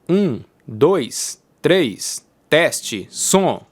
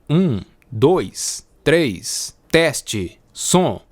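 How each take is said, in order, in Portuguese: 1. Os graves mais baixos da voz foram cortados. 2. A voz tem graves completos, sem corte. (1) "agora eu vou ativar a chave de atenuação de graves" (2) "sem a chave de atenuação de graves"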